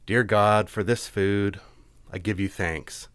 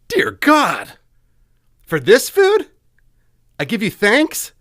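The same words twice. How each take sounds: First: It is said in a sincere, earnest tone. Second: It is said in a sarcastic, mocking tone. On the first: The thanks is genuinely meant. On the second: The thanks is not really meant.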